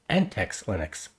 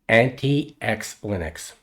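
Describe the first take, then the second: First: The name is said as 'an-tex'. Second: The name is said as 'anti-ex'. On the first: The speaker calls it right. "the correct pronunciation is" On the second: The speaker calls it wrong. "I was pronouncing it wrong"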